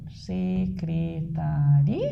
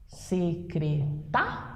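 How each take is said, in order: First: "Secretari" slowly, syllable by syllable, rising on a long RI; syllables split, stress on RI. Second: "Secreta" slowly, syllable by syllable, landing on TA; stress on TA. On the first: Teacher dividing the word for the class, "Secretari" slowly, stress on RI. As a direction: stretch out "Secretari" and lean on the final RI. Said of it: "dividir secretaria". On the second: Teacher showing the stressed syllable, "Secreta" slowly with stress on TA. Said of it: "Aqui é a segunda". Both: Shown as a demonstration.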